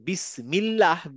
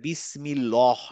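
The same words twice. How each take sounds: First: The l is light, with the tongue kept low. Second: The l is dark, with the tongue raised. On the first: The speaker calls it right. "বিসমিল্লাহ আমি কিন্তু বলি" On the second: The speaker calls it wrong. "বলি না বিসমিল্লাহ"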